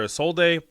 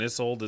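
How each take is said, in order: First: The final e is sounded as an extra syllable. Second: The final e is silent, with no extra syllable. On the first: This is how other people say the name. The speaker calls it wrong. "why people call her Isolde" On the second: This is the name as in the old story. The speaker calls it right. "It's a silent E"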